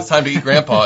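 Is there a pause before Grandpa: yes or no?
no. It runs on with no pause before Grandpa.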